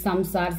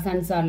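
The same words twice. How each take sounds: First: Samsar with an m before the second s; read with m. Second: Sansar with an n before the second s; tongue, not lips, for the n in Sansar; read with n. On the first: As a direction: sound the dot in Samsar as m. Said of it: "used to read this Samsar". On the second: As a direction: sound the dot in Sansar as n. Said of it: "Im or In will come". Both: Shown as a demonstration.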